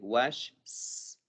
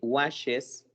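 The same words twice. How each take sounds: First: A bare s sound is added after wash. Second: An extra syllable es is added after wash. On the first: The speaker calls it wrong. "Si nada más tuviera la S" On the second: The speaker calls it right. "si yo le agrego es"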